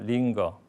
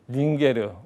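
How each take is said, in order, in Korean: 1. '링거'는 두 음절이고 연음이 없어요. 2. '링거'는 세 음절이고 연음이 있어요.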